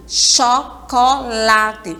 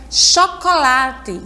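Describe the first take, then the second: First: Chocolate very slowly as cho... co... late; split into syllables. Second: Said in the usual way. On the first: Shown as a demonstration. Teacher counts out the fourth word for pupils, syllable by syllable. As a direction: break chocolate into separate beats. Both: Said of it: "palavra que tem quatro sílabas".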